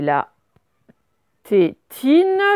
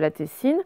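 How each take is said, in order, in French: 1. Le T-I se prononce avec un son 't'. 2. Le T-I se prononce avec un son 's'. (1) "c'est la prononciation classique, c'est donc ti" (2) "c'est pas la tessine"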